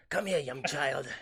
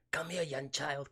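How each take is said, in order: First: Slow, eerie, louder villain beckoning; villainous recruiter voice. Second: Said in the usual way. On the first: Retold or imitated. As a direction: lure the child in like a creepy witch. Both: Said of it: "that's how she talks in my head".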